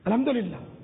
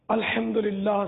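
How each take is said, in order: First: The phrase is said quickly and slurred. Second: The phrase is said slowly and clearly. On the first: The speaker calls it wrong. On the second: The speaker calls it right.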